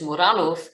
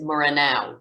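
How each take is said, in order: First: The name is pronounced the Polish way. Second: The name is pronounced the anglicized way. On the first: "I will be pronouncing it the Polish way" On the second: "for many people they will pronounce it"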